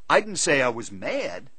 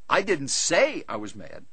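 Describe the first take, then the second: First: The stress is on the word mad. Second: The stress is on the word say. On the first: A different feeling was claimed. "I said I was disappointed" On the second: It was expressed another way, not spoken. "I wrote him about it"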